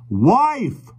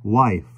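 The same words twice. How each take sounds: First: Much higher, bellowed correction; a mock roar at the deaf stranger. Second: Said in the usual way. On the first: A narrator's reading. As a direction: roar it at the deaf old man. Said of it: "roared John". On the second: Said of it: "returned John".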